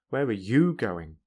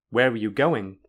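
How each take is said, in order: First: The strongest stress falls on the word you. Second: The strongest stress falls on the word going. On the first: "and you" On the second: "in a normal way, then the syllable with the most stress is go"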